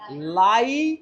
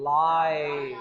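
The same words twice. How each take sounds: First: Lie said with a flat short vowel; mock wrong vowel. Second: Lie said with a gliding ai diphthong; proper diphthong. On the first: Teacher showing the wrong vowel to students. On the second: Teacher models the correct sound for the class. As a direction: glide lie through a long ai. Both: Shown as a demonstration. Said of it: "आई को बोलो आई".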